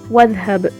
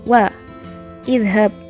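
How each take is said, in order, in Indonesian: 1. Vokal 'i' dihilangkan dan disambung. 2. Vokal 'i' dibaca setelah jeda. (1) "tapi langsung ke wadhab"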